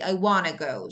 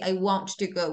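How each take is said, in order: First: Want to is reduced to wanna. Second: Want to is said as two full words. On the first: The speaker calls it right. "We say I wanna go" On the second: The speaker calls it wrong. "We don't say I want to go"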